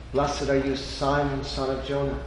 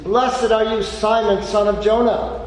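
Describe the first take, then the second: First: Gentle blessing. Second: Loud, high proclamation of blessing; joyful blessing. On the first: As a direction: bring it down and speak it tenderly. Repeat of Jesus' blessing. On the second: Jesus blessing Peter, loud and joyful. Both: Acted.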